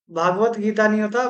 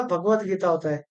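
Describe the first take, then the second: First: भागवत with long aa, said as wrong; भागवत: stretch the first vowel to aa; the incorrect भागवत with long bhaa; wrong form. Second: भगवत with short a, softer; भगवत: keep the first vowel short, bha not bhaa; the correct भगवत, short bha, said softer; correct form. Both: Shown as a demonstration.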